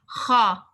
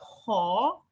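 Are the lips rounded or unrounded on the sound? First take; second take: unrounded; rounded. First: The lips stay unrounded on the sound. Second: The lips are rounded into a circle. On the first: The speaker calls it right. "pay attention to my pronunciation" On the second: The speaker calls it wrong. "you don't make your mouth circle. It's not ha. This is wrong"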